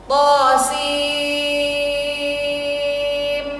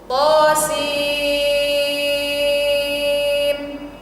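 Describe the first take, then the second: Both takes have the same delivery.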